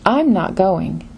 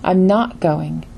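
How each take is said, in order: First: "I'm" stressed and falling, rest slow and lighter. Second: "not" punched, the rest slower and lighter; stress on NOT. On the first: Teacher showing learners a meaning contrast, stress on "I'm". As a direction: lean on "I'm" to mean not me but someone else. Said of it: "meaning not me, but perhaps you". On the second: Teacher showing learners the refusal meaning, stress on "not". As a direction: hit "not" hard to sound like a refusal. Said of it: "meaning I refuse to go". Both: Shown as a demonstration.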